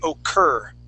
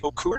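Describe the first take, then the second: First: The vowel is pronounced as an er sound. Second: The vowel is pronounced as a clear u. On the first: The speaker calls it right. "We would say occur" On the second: The speaker calls it wrong. "We don't say occur"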